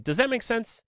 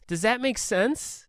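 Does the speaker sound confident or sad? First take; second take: confident; sad. First: It is said in a clear, confident way. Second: It is said in a sad, unsure way. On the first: The speaker is checking that the listener follows. The speaker calls it right. "hopefully I would be articulate and I would say" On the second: The speaker doubts his own words. The speaker calls it wrong. "the tone that he uses is so sad and pathetic"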